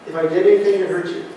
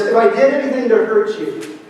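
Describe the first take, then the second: First: Quick mumbled repeat. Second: A vague, hedged apology at normal pace; vague half apology. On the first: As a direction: toss the apology off quickly, half-hearted. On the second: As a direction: offer the apology like you hardly mean it. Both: Shown as a demonstration. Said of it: "It's not something like this".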